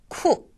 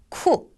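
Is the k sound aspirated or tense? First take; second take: aspirated; aspirated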